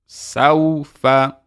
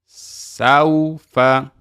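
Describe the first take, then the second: Both takes have the same delivery.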